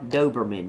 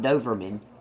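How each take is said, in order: First: The middle consonant is a B sound. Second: The middle consonant is a V sound. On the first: The speaker calls it right. "Dober, with a B" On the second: The speaker calls it wrong. "not Doverman"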